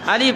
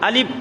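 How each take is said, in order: First: The air keeps flowing without the lips touching. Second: The lips press together, stopping the air. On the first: The speaker calls it right. "পড়ার সময় বাতাস চালু থাকবে, ঠোঁট লাগানো যাবে না" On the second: The speaker calls it wrong. "আমরা ভুল করে ফেলি"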